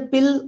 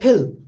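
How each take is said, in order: First: The p is said without a puff of air. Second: The p is said with a puff of air. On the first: "if I say pill" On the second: "native speaker will always say, if pa occurs word initially, phil"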